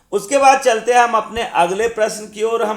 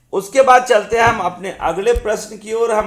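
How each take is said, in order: The two takes are said the same way.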